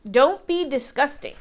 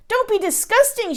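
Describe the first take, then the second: First: Jack echoing. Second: A high, sharp scold; scolding giantess. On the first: Jack cheekily echoes the giant wife, lightly. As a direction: parrot her words back. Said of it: "said Jack". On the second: Giant wife scolds her husband, sharply. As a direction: snap it at your husband. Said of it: "she said". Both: A narrator's reading.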